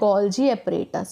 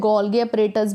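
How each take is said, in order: First: The middle consonant is a soft j sound. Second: The middle consonant is a hard g sound. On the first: The speaker calls it right. "इसका right pronunciation है गोल्जी apparatus" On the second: The speaker calls it wrong. "बहुत लोग इसे गोल्गी apparatus भी कहते हैं"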